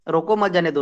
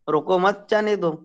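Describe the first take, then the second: First: There is a pause right after 'roko'. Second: There is a pause right after 'mat'. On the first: Stop him, do not let him go. "उसको रोक दिया" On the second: Do not stop him, let him go. "अगर इसको मैं यहां पर लगा दूंगा"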